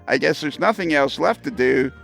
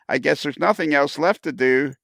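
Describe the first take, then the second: Both takes have the same delivery.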